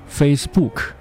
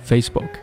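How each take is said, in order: First: Both syllables carry equal stress. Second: The stress is on the first syllable. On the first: The speaker calls it wrong. "face 和book 两个单词的重音是一样了" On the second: The speaker calls it right. "正确的读法是Facebook"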